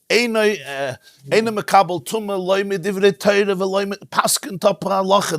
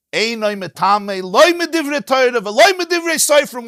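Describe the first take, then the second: First: Mild hint of a tearful rebbe; retold crying quote. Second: High, loud, ringing declaration; emphatic ruling. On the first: Retelling how the Rebbe wept quoting the Rambam, mildly tearful. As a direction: retell the rebbe's weeping ruling, understated. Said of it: "And he's crying, mamash, like, sobbing". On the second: Shown as a demonstration. Teacher proclaims the Mishnah's ruling to class, emphatic and ringing.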